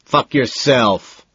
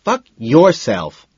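First: Loud, slow and higher; furious slow roar. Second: Loud slow mocking echo; mimicking. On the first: A narrator's reading. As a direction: bellow it, dragging each word. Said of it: "Price roars". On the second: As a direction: mimic the roar back. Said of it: "the voice mimics".

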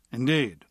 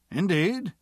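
First: Said in the usual way. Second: Rising, surprised "Indeed?"; "Indeed?" pitched up and asked in surprise; surprised question. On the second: Acted. A surprised reply.

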